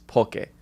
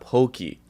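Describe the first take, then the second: First: It sounds like the start of Pokemon. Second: It rhymes with the end of hokey pokey. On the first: The speaker calls it right. "It's poke, like Pokemon" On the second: The speaker calls it wrong. "not pokey"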